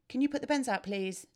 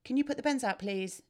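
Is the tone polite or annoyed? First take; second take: polite; polite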